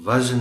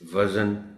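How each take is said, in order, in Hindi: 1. बीच के व्यंजन के बाद कोई स्वर नहीं है। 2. बीच के व्यंजन के बाद एक स्वर जोड़ा जाता है। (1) "ये लफ्ज़ वज़न है" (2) "वज़न नहीं है"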